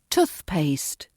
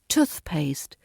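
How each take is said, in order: First: The stress is on the first part, tooth. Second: The stress is on the first part, tooth.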